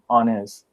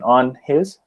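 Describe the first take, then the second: First: The two words are linked smoothly. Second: The two words are said separately.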